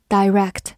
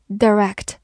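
First: "direct" with first syllable like "die"; alternative pronunciation. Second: "direct" with short, weak first vowel; first pronunciation. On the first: Teacher giving the other accepted reading, long-I "direct". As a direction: say "direct" as dye-REKT, long I. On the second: Teacher giving the first of two readings, short-vowel "direct". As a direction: say "direct" as duh-REKT. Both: Shown as a demonstration. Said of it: "或者读作direct".

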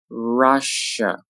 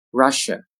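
First: "Russia" slowly, each syllable held; slow careful "Russia"; drawn-out model. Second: Said in the usual way. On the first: Shown as a demonstration. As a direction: stretch "Russia" out for learners. Teacher models word slowly, then normally.

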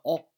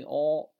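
First: 哦 said short; short vowel. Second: 哦 held long; long vowel. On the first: Teacher demonstrates the short vowel, 哦 said briefly. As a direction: cut 哦 off abruptly. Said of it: "发短音的哦". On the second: Teacher demonstrates the long vowel, 哦 held long. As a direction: draw out 哦 evenly. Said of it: "发长音哦". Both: Shown as a demonstration.

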